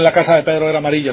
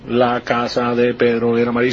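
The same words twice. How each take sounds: First: "la casa de Pedro era amarilla" rushed as one word, fast, no gaps; run together. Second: Words separated. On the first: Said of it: "todo junto". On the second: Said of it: "no había separación". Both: Shown as a demonstration.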